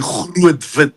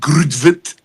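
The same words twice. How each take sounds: First: The name is said with an Afrikaans pronunciation. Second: The name is said with an English pronunciation. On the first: The speaker calls it right. "It's actually Grootwit" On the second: The speaker calls it wrong. "You pronounce it Grootwit"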